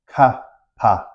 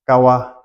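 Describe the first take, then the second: First: The second syllable begins with a p sound. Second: The second syllable begins with a w sound. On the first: The speaker calls it wrong. "we don't say ka pa" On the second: The speaker calls it right. "we pronounce this as kawa"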